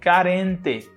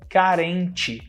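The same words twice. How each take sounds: First: The final syllable has a plain t sound. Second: The final syllable has a ch sound. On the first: This is how people in some other regions say it. "Tem lugares no Brasil onde as pessoas falam assim" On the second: This is how people in Belo Horizonte say it. "Mas aqui em Belo Horizonte, a gente fala"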